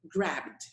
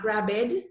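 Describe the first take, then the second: First: The ending is a plain d sound. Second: The ending is said as an extra syllable. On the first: The speaker calls it right. "Bd, bd" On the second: The speaker calls it wrong. "Not grabbed"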